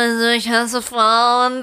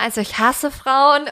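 First: It is said in a put-on tough mafia voice. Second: It is said in an ordinary, unmarked voice. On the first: One personality is speaking. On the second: The other personality is speaking.

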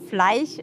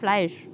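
First: The sch sound is pronounced in an altered way. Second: The sch sound is pronounced in the standard way. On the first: The speaker calls it wrong. "Ich sage nämlich zum Beispiel immer Fleisch" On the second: The speaker calls it right. "statt Fleisch"

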